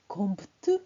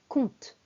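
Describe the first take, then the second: First: A P sound is pronounced in the word. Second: No P sound is pronounced in the word. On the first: The speaker calls it wrong. "on ne dit pas compte, on ne prononce pas le P" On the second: The speaker calls it right. "on ne prononce pas le P, on dit compte"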